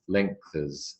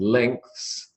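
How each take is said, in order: First: An extra vowel separates th and s. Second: The th and s are joined directly.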